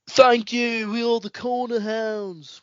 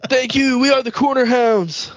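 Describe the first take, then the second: First: It is said in a British accent. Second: It is said in a plain, unaccented voice.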